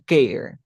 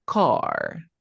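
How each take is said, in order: First: "care", the A read by its letter name; mispronounced "car" as "care". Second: "car" pronounced correctly as kahr, drawn out; "car" with open A. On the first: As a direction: say "care" with an ay vowel where ah belongs. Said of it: "por qué aquí arriba no se pronuncia". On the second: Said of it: "aquí la A se pronuncia como". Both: Shown as a demonstration.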